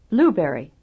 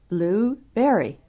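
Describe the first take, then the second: First: Only the first part is loud and stressed. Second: The second part is also loud and clear.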